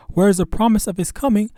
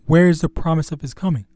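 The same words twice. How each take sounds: First: Higher, louder scoffing quote; scoffing question. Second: Quoting the scoffer plainly; plain retelling. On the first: Acted. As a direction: read it as a scoffer's taunt. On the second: Retold or imitated. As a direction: repeat it in an even voice. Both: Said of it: "this is a scoffing".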